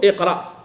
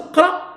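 First: "اقرأ" as iqra, i then a closed q; helping initial vowel. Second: "قرأ" as qra, opening on a bare consonant cluster; vowelless first letter. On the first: Teacher giving the allowed start, "اقرأ" begun with i. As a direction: lead into "اقرأ" with a short i. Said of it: "لتتمكن من النطق بالسكون". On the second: Teacher showing a rejected start, "قرأ" begun on sukun. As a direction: begin "قرأ" on the q with no helping vowel. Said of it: "أن تبدأ بالسكون هذا مردود". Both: Shown as a demonstration.

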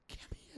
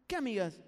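First: Whispered suspicious ¿Qué amigas?; muttering the question to himself before asking her. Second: ¿Qué amigas? said louder, pressing; demanding which friends from his girlfriend. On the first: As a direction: breathe ¿Qué amigas? with no voice, much softer. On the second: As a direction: push the question at her louder. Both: Retold or imitated. Suspicious boyfriend on phone.

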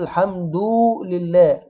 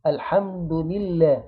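First: الحمد لله with "du" dragged into a long "doo"; wrongly stretched vowel. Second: الحمد لله with a brief "du" going straight into lillah; slow careful الحمد لله, no long waw; short damma only. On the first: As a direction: overlengthen the u before لله in الحمد لله. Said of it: "يبقى كده اديناها واو". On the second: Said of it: "الحمد مضمومة بس". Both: Shown as a demonstration.

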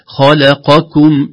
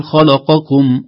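First: Slow "خلقكم" with q and k separate; clear qaf-kaf. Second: "خلقكم" with q and k blurred together; wrong reading. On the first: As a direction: move straight from q to k in "خلقكم". ("خلقكم" بقاف واضحة ثم كاف) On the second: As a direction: smear q into k in "خلقكم". ("خلقكم" بين القاف والكاف) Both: Shown as a demonstration. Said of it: "لا نقول".

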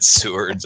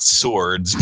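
First: Sewards said as soo-ards; Sewards pronunciation. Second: Swords said as one syllable, sords; swords pronunciation. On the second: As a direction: say swords plainly, the wrong way. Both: Shown as a demonstration. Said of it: "Not swords, but Sewards".

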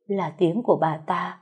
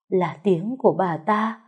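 No difference in how they are said.

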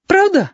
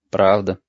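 First: Put-on very high, delighted little boy; overjoyed child asking hopefully. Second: Said in the usual way. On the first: A narrator's reading. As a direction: squeak it as a thrilled question. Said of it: "обрадовался Гошка".

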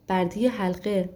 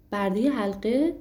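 First: Said in the usual way. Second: Incredulous question, rising at the end; disbelieving. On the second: A narrator's reading. Aladdin questioning the slave of the ring, disbelieving. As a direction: ask it as if you can't believe it. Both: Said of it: "علایالدین با ناباوری گفت".

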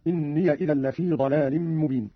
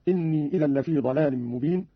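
First: إني said "inniya", with a short a on the yaa, running into the next word; open yaa in إني. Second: Said in the usual way. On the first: Shown as a demonstration. Teacher shows Qalun's reading, إني voiced as "inniya". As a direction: link إني onward as "inniya". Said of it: "بفتح الياء وصلا هكذا". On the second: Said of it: "قرأ قالون بفتح الياء وصلا".

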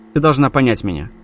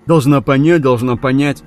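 First: Said in the usual way. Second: Mock Tom's words in a cracking, mimicking voice; cracked sneering mimicry; mocking, voice breaking. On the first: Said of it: "передразнила она его". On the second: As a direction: parody him with a breaking voice. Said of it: "срывающимся голосом передразнила она его".

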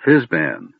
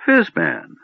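First: Understated, matter-of-fact prompt; supply the forgotten name helpfully. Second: Put-on high, pleased old man's confirmation; smiling recognition. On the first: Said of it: "supplied Tasselhoff helpfully". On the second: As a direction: seize on the name with a smile. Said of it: "the old man nodded, smiling". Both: A narrator's reading.

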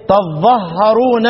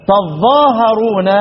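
First: تظهرون with the doubled ظ, no alif, slowly; shortened reading. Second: تظاهرون with the long alif after ظ, slowly; long reading. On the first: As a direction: recite تظهرون slowly with a stressed ظ. (قراءة تظهرون بالتشديد ببطء) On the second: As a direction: recite تظاهرون with a drawn-out ظا. (قراءة تظاهرون بمد الألف) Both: Shown as a demonstration. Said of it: "يبقى الثلاث قراءات هناك إيه؟".

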